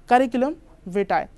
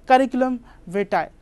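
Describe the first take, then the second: Both takes have the same delivery.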